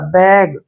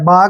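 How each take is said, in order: First: The vowel is a short front 'ae' sound. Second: The vowel is a long open 'ah' sound. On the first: The speaker calls it right. "इसलिए हमने इसको बैग पढ़ा है" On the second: The speaker calls it wrong. "बाग नहीं पढ़ा"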